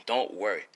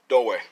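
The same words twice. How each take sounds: First: Softer, calmer don't worry; soft reassurance. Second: Loud, quick don't worry; loud reassurance. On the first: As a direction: settle them gently. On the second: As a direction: call it out to viewers. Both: Real, not acted.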